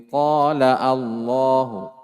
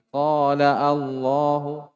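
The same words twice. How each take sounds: Both takes have the same delivery.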